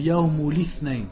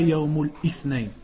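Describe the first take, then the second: First: 'Yaumul' links into 'ithnain' with no catch. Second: A glottal catch comes before 'ithnain'. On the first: The speaker calls it right. "On dit Yaumul Ithnain" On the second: The speaker calls it wrong. "on ne dit pas Yaumul Ithnain"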